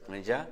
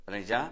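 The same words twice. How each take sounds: No difference in how they are said.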